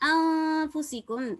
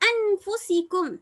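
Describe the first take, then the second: First: The n sound is hidden and nasalized. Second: The n sound is pronounced clearly. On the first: The speaker calls it right. "நூன் விளங்காம ஓதணும்" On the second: The speaker calls it wrong. "அன்ஃபுசிக்கும் அப்படின்னு ஓதுற அது சரியா"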